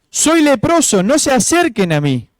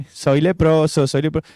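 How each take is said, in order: First: Grito de advertencia imitado. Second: Mock carefree chant, understated; falso disfrute, burlón. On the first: Acted. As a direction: call out a half-shouted warning for everyone to hear. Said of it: "tenía que gritar para que todo el mundo supiera". (grito de aviso, a media fuerza) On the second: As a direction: toss it off as if enjoying it, half-hearted. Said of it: "disfrutando, no, ninguno". (fingiendo disfrutarlo, a media voz)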